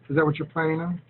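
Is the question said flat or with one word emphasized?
flat. It is flat, with no word emphasized. It sounds unemotional. The speaker calls it wrong. "See how flat and unemotional it sounds?"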